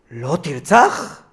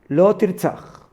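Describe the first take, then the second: First: It is said as a mocking, incredulous question. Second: It is said as a plain, firm command.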